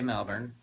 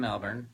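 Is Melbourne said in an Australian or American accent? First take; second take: American; American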